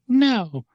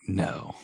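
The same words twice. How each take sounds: First: High-pitched mock puppet refusal; Pinocchio. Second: Soft, understated mock refusal; head vampire. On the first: Pinocchio answering the head vampire, high-pitched cry. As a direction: squeal it out in a high little voice. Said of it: "Pinocchio's like". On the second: Head vampire overruling the henchmen, soft short refusal. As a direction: say it softly, lightly voicing a vampire boss. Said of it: "the head vampire's like".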